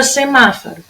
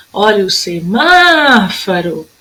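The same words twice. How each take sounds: First: Said in the usual way. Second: "semáforo" called out with a long má; chamando, MÁ esticado. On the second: Shown as a demonstration. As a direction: hold the má of "semáforo" in a calling tune. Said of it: "a sílaba que dura mais tempo". ("semáforo" chamado com o má bem comprido)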